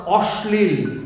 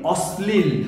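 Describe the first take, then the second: First: অশ্লীল with the palatal sh, /oshlil/; অশ্লীল said as spelt, with sh; wrong pronunciation. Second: অশ্লীল slowly with a dental s, /oslil/; অশ্লীল with a clean s sound; correct pronunciation. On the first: Teacher showing the wrong অশ্লীল to avoid. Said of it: "কোনোভাবেই বলবো না". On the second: Coach modelling the correct অশ্লীল slowly for students. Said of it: "আমরা বলি". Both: Shown as a demonstration.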